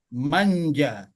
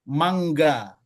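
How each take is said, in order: First: The middle consonant is a 'j' sound. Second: The middle consonant is a hard 'ng-g' sound. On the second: "Jadi misalnya mangga"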